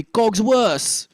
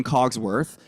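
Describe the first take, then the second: First: French-accented "Cogsworth" without the TH. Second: Said in the usual way. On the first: Shown as a demonstration. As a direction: say "Cogsworth" ending in an S, French-style. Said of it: "drop that and it'll be Cogsworth". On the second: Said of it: "rather than Cogsworth".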